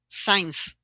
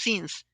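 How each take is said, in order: First: The word sounds like 'science'. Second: The word sounds like 'since'. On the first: The speaker calls it wrong. "most of the people say science" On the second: The speaker calls it right. "It's not science, it's since"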